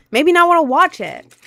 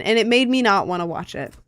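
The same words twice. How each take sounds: First: Higher and louder, fed up; loud exasperated repeat. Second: Said in the usual way. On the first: Real, not acted. Repeating to chat that the show was ruined, loud and fed up. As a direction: blurt it again, exasperated.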